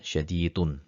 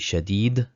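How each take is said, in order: First: The word ends with a full vowel ending. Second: The word ends on a bare consonant. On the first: The grammatical case ending is shown. "pronounce the harakat in its complete way" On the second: The reciter is stopping at this point. "make it a sukun"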